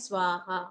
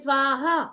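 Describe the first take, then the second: First: The word is said softly and politely. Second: The word is said loudly and aggressively. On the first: "जैसे हवन करते समय हम करते हैं" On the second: "कई लोग क्या करते हैं ... हम एग्रेशन दिखा रहे हैं"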